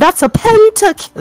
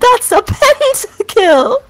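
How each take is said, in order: First: It is read flatly, without much excitement. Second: It is read with more energy and excitement.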